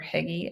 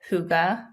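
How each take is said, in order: First: The word is said like 'higgy'. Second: The word is said in the newly learned way. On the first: The speaker calls it wrong. "or Higgy, as I've been saying" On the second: The speaker calls it right. "I have been pronouncing this word wrong"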